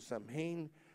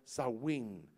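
First: It is read letter by letter as written. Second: It is said with a sow-in sound. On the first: "se mira, compuesto como Samhain" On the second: "está pronunciado Samhain"

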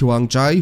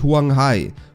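First: The last syllable begins with a j sound. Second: The last syllable begins with an h sound. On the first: The speaker calls it wrong. "nicht Huangjai" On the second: The speaker calls it right.

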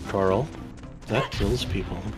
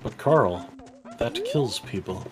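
First: It is said in a plain natural voice. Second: It is said in a put-on character voice.

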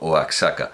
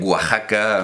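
First: The x is said as a ks sound. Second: The x is said as a throaty j sound. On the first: Nobody actually says it this way. The speaker calls it wrong. "nadie dice, por supuesto, Oaxaca" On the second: This is how the local people say it. The speaker calls it right. "pero que ellos dicen Oaxaca"

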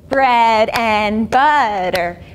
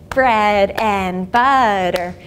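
No difference in how they are said.

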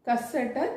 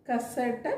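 Both takes have the same delivery.

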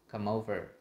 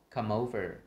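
Both takes have the same delivery.

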